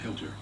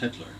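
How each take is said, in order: First: The l sound comes before the t. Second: The l sound comes after the t. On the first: The speaker calls it wrong. "I mispronounced the name. I called him Hilter" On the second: The speaker calls it right. "corrected me and said, "That's Hitler"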